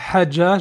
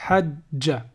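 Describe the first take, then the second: First: The middle consonant is short and single. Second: The middle consonant is held long, doubled. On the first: The speaker calls it wrong. "Au lieu de dire hajja" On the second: The speaker calls it right. "la shadda, c'est quand la voyelle est doublée"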